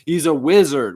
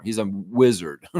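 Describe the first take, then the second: First: Said through a laugh, louder; laughing delight. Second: Said in the usual way. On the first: Real, not acted. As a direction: chuckle it out, amused. Repeats wizard line laughing.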